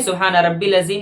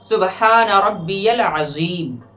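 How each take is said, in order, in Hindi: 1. 'Rabbi' और 'al' मिलकर एक छोटा 'rabbil' बन जाता है। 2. 'Rabbi' और 'al' के बीच 'y' की ध्वनि से जोड़ होता है। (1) "ना कि सुबहान रब्बिल अज़ीम" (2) "बल्कि पढ़ना है"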